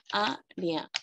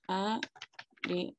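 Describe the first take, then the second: First: "Área" as "á", pause, "rea"; two-part syllable split. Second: "área" very slowly as "á", "re", "a"; three-syllable split. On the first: Teacher sounding out the example, two-part syllable split. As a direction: break "Área" once, after the first vowel. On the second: Teacher correcting herself on the hiatus, three-syllable split. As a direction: separate every syllable of "área" with pauses, softer. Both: Shown as a demonstration. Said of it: "dos vocales en sílabas diferentes".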